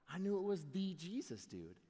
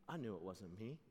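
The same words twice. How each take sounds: First: "was" leaned on, rising back to normal level; stress on was. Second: Quiet, lower "I knew it wasn't me"; soft admission. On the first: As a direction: hit the word "was" to make the point. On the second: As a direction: say "me" softly as a humble aside. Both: Acted.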